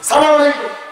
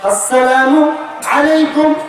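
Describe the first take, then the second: First: The greeting starts directly with 'salam'. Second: The greeting starts with an 'as' syllable. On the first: A curse wishing harm on the listener. The speaker calls it wrong. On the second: A wish of peace on the listener. The speaker calls it right.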